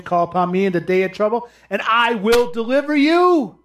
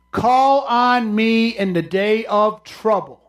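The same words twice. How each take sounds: First: Quick reading. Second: Slow it down and lean on Call; slow solemn reading. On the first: Preacher reading a verse to congregation, quick reading. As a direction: Call upon me read fast, rising at the end. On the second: Preacher reading scripture to congregation, slow solemn reading. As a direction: Call on me read slowly, heavy stress on Call. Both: Shown as a demonstration. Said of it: "That's what he's saying".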